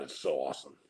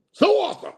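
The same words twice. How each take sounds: First: Gloating hush. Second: High, loud gleeful squeal; gloating squeal. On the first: Gloating whisper. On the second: Streamer gloating about road ragers, high gleeful squeal. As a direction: burst out in delight. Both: Real, not acted.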